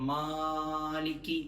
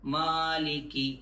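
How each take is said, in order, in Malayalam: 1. ആദ്യ സ്വരം ആവശ്യത്തിലധികം നീട്ടിയിരിക്കുന്നു. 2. ആദ്യ സ്വരം ചെറുതായി മാത്രം നീണ്ടിരിക്കുന്നു. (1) "ആവശ്യമില്ലാതെ വെറുതെ നീട്ടുന്നത്" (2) "ഇത്ര മാത്രം"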